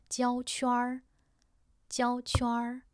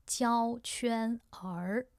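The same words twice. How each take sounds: First: 焦圈儿 with the r blended into 圈 as one syllable; correct erhua. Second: 焦圈儿 read slowly with 儿 as a separate extra syllable; wrong split erhua. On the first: Teacher gives learners the right version, smooth. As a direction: merge the r into 圈 in 焦圈儿. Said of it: "圈儿 is just one syllable". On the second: Teacher shows learners the mistake, drawn out. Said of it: "No, that's wrong". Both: Shown as a demonstration.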